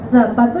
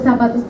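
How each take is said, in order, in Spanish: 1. La z se dice con la lengua entre los dientes. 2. La z se dice como un sonido de "s" normal. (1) "porque tienen ese sonido lingual" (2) "¿cómo escribiste con ese zapato?"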